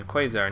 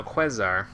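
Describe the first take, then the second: First: QUASAR as KWAY-zar; usual pronunciation. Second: QUASAR as KWEZ-ar; short "eh" in Quasar; altered pronunciation. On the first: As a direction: say Quasar with a long "ay". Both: Shown as a demonstration. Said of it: "No, Quasar".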